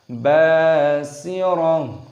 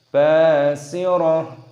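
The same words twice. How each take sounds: No difference in how they are said.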